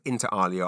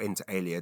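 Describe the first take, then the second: First: "Alia" said AH-lee-uh; first pronunciation option. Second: "Alia" said AY-lee-uh; second pronunciation option. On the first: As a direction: say "Alia" with an open AH. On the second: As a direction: say "Alia" with a long AY, as in ale. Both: Shown as a demonstration. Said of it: "depending on which pronunciation you prefer".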